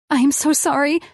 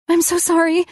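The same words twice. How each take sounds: First: High, trembling tearful apology; shaking apology. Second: High, louder, breaking tearful apology; shaking apology. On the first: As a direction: apologise on the edge of tears, voice shaking. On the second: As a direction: plead sorry again, voice cracking. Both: Acted. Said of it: "my body shaking".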